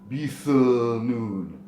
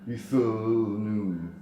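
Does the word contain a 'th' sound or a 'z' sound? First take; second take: th; th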